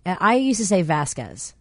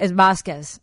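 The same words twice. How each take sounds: First: "Vasquez" slow, flat American a, VASS-kez; Chicago pronunciation. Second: "Vasquez" with an open Spanish a, VAHS-kez; mom's correction. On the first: Host recalls her old Chicago way of saying "Vasquez". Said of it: "That's the Chicago pronunciation". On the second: Host mimics her mom correcting "Vasquez". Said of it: "my mom's like". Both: Retold or imitated.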